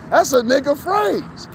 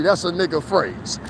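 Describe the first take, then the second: First: "phrase" stretched slow and pitched higher; emphatic repeat. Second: Said in the usual way. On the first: Shown as a demonstration. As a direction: lean hard and slow on "phrase".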